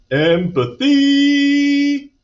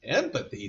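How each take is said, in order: First: EMPATHY sung out high, loud and very slow; drawn-out key word. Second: Soft, puzzled echo to oneself; thoughtful. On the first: Teacher reveals to Miranda what she must show, EMPATHY drawn out high and loud. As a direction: stretch "empathy" out long, high and ringing. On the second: Miranda ponders her teacher's new word, softly thoughtful. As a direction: think "Empathy" aloud, much quieter. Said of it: "thought Miranda". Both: A narrator's reading.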